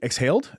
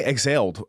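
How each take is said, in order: First: "exhaled" as "eks-HALED", questioning rise; corrected "exhaled". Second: "Exhaled" said as "eg-ZALED", no h; mispronounced "exhaled". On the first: Reader checking the word "exhaled", with a clear h, "eks-haled". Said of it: "what did I say?". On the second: Reader repeating the slip in "Exhaled", h dropped to "eg-zaled". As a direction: swallow the h in "Exhaled", buzzing the x. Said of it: "why did I say it like that?". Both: Shown as a demonstration.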